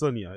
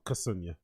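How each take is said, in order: First: The name starts without a K sound. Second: The name starts with a K sound. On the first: The speaker calls it right. "it is a silent K. It's Sunya" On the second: The speaker calls it wrong. "It's not Kasunya"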